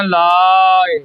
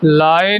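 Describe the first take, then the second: First: ਲਾਏ as long "laaa" with a faint final glide; long released vowel. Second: ਲਾਏ with a full final e, "laa-ey"; wrong reading demo. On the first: Teacher modelling for learners, long-vowel pronunciation. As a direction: stretch ਲਾਏ and let the ending go. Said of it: "ਲਾ ਲੰਮਾ ਲਿਜਾਣਾ ਹੈ". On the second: Teacher warning learners of the mistake, mispronunciation demo. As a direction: sound the ending of ਲਾਏ as its own syllable. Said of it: "ਨਹੀਂ ਕਹਿਣਾ". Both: Shown as a demonstration.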